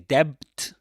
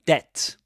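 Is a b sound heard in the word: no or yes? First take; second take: yes; no. First: The word is said with a b sound. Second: The word is said without a b sound. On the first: The speaker calls it wrong. "You don't say debt" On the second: The speaker calls it right. "but debt. You don't pronounce the b"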